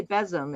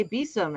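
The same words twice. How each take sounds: First: Besom said BEZ-um; other's pronunciation, BEZ-um. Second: Besom said BEE-sum; own pronunciation, BEE-sum. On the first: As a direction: say besom with a short e. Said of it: "I know you say besom". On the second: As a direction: say besom with a long ee. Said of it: "I always say besom". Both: Shown as a demonstration.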